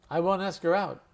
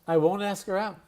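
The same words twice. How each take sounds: The two takes are said the same way.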